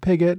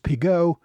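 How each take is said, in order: First: The name is said with an English pronunciation. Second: The name is said with a French pronunciation. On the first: The speaker calls it right. "it's become Pigott" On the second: The speaker calls it wrong. "which is the French pronunciation"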